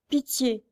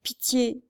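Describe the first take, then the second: First: Weak, dying "pitié", falling away; faint plea. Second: Faint plea. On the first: Blind girl begs for mercy, weak and faint. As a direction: beg "pitié" with the last breath. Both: A narrator's reading. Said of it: "cette voix éteinte demandait grâce".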